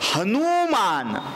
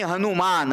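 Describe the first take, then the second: First: The second syllable has a long vowel. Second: The second syllable has a short vowel. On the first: "नु दीर्घ" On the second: "ऱ्हस्व"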